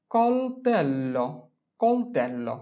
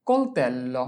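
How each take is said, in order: First: Slow model pronunciation. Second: Said in the usual way. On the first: Shown as a demonstration. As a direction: stretch কলতেল্লো out for the class. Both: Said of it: "teacher models pronunciation".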